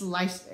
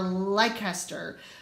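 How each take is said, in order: First: The name is said in a shorter, reduced form. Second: The name is read out the way it is spelled. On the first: The speaker calls it right. "But I promise, it's Leicester" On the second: The speaker calls it wrong. "it looks like Leicester"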